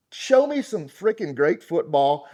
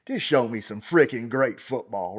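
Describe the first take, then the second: First: "Show me some freaking great football" slow, louder, hitting Show; slower, louder insistence on "Show"; slow emphatic. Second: Said in the usual way. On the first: Real, not acted. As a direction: lean on Show and drag the line out. Repeats line with emphasis.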